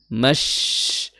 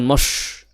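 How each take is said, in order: First: The vowel is bright, with spread lips. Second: The vowel is dark, with rounded lips. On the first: The speaker calls it right. "sedikit memeringiskan ya bibir, ya bibirnya sedikit tersenyum" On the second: The speaker calls it wrong. "bukan mosh"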